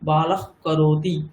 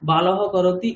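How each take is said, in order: First: The final sound is a velar friction before k. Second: The final sound is a plain breathy h before k. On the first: "জিহ্বামূলীয় হয়ে গেছে" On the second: "বিসর্গও থাকবে"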